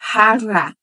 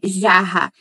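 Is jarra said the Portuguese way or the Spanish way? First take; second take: Spanish; Portuguese. First: The word is said with Spanish sounds. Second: The word is said with Portuguese sounds. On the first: The speaker calls it right. "vai ser jarra" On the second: The speaker calls it wrong. "Já não vai ser jarra"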